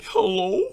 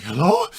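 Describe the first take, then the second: First: High-pitched imitation of a nervous answer; put-on scared girlfriend; scared hello. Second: Loud, panting imitation of a caller; acted out-of-breath phone hello; huffing and puffing. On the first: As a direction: answer the phone high and timid, rising. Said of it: "this is exactly how she answered". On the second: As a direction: blurt it high between heavy breaths. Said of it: "huffing and puffing and shit".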